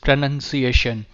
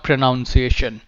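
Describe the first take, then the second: First: The second syllable sounds like 'nun'. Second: The second syllable sounds like 'noun'. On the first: The speaker calls it right. "spelling में ही nun है, noun o n u n नहीं है, so it's pronunciation" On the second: The speaker calls it wrong. "It's not pronunciation"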